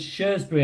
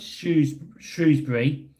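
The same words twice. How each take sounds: First: Shrewsbury said as "SHURZ-bree"; Shrewsbury with no "roo", just "shurz"; own pronunciation. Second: Shrewsbury said as "SHROOZ-bree"; Shrewsbury with a long "oo" after shr; correct pronunciation. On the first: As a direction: say Shrewsbury with "shurz" for the first syllable. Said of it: "but I pronounce it as". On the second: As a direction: say Shrewsbury with "shrooz", rhyming with news. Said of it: "I know it's". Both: Shown as a demonstration.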